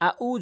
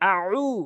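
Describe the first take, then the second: First: The second syllable starts with a plain glottal stop. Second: The second syllable starts with a throat ain sound. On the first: The meaning becomes wrong. The speaker calls it wrong. "এখানে আউ যদি বলেন তাহলে অর্থ ভুল অর্থ হবে" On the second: It means I seek refuge. The speaker calls it right. "হামজা জবর আইন অবশ্য উ"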